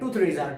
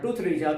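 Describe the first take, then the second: First: Threes and are blend quickly into threeja. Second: Threes and are blend quickly into threeja.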